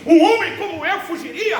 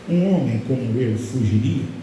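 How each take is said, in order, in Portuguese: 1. É dito em um tom firme e confiante. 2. É dito em um tom triste e abatido. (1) "Neemias se posicionando e dizendo assim" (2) "Tentar mais triste ainda"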